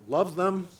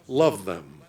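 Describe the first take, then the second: First: Rising, doubtful echo of the words; questioning echo. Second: Much lower, settled answer with the weight on love; firm affirmation. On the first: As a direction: ask it back as if surprised by the word. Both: Shown as a demonstration.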